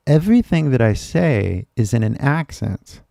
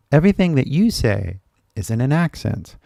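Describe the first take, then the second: First: Emphatic, measured delivery pointing to "I"; stress on I. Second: "you" picked out with a pitch accent; stress on you. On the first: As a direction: lean on "I" in contrast with the listener. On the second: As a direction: lean on "you" to turn it onto the listener. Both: Shown as a demonstration. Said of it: "I really cannot overemphasize".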